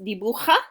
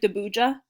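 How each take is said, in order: First: The j sounds like a strong, raspy h. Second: The j sounds like an English j. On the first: The speaker calls it right. "It's pronounced dibuja" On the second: The speaker calls it wrong. "I know it looks like dibuja"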